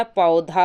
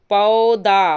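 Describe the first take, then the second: First: पौधा with aspirated dh, "paudhaa"; correct form. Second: पौधा with plain d, loud "paudaa"; loud, drawn-out पौधा without breath on the d; wrong form. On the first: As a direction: breathe out on the dh of पौधा. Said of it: "पौधा होता है". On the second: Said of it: "पौधा नहीं होता". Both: Shown as a demonstration.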